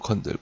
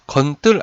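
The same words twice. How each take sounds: First: The second syllable starts with a plain consonant. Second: The second syllable starts with a tense consonant. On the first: The speaker calls it right. "된소리로 발음이 돼요? 안 됩니다" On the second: The speaker calls it wrong. "건들 아니고"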